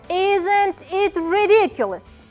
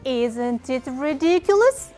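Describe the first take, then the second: First: The voice falls at the end. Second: The voice rises at the end. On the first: It is an exclamation. "with falling tone" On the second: It is asked as a question. "If we pronounce it like a question"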